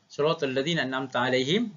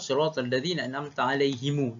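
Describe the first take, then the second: First: The final word ends on a closed m sound. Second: The final m is followed by a long u vowel.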